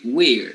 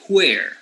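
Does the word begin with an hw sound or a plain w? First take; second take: plain w; hw. First: It begins with a plain w sound. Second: It begins with a breathy hw sound. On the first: "they don't say where" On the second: "they pronounce the double H as who"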